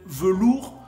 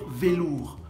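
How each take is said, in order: First: The first vowel is a neutral 'uh' sound. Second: The first vowel is a clear 'ay' sound. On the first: "Au lieu de dire peut-être velours" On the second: "vont vous dire velours"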